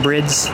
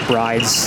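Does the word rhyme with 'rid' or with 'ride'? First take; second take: rid; ride. First: The vowel is short, rhyming with 'rid'. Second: The vowel is long, rhyming with 'ride'. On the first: This is how the name is said in Japan. "in Japan, I guess you can call them brids" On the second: This is how North Americans say the name. "I guess the North American pronunciation"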